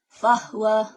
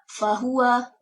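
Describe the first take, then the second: First: The h is followed directly by the w. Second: A vowel is heard between the h and w. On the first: This is the Qalun reading. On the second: This is the usual reading.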